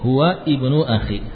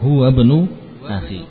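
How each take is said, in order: First: The first vowel of ibnu is pronounced separately. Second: Huwa links directly into bnu, dropping the vowel.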